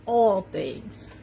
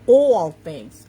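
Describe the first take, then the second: First: Said in the usual way. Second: Loud New York accent, drawn-out "awl". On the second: Real, not acted. Coach stressing the promise to viewers, New York accent. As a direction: lean hard on a New York "all". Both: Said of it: "That's my New York accent coming out".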